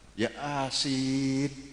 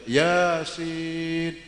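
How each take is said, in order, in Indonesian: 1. Nama Yasin terbagi menjadi dua bagian yang terpisah. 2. Nama Yasin diucapkan sebagai satu kata yang mulus. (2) "Baca Yasin"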